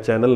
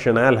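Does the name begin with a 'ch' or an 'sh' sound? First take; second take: ch; sh. First: The name begins with a hard 'ch' sound. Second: The name begins with a soft 'sh' sound. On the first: The speaker calls it wrong. "चैनल नहीं है" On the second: The speaker calls it right. "शनैल है"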